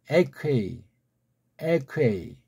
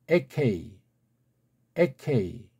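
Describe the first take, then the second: Both takes have the same delivery.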